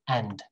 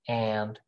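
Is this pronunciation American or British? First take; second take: British; American. First: It is said in a short British way. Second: It is said in a drawn-out American way. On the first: "British people like to keep this very short" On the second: "American people say"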